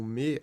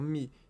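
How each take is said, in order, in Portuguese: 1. A vogal é um 'e' pleno e aberto. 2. A vogal é enfraquecida para um som de 'i'.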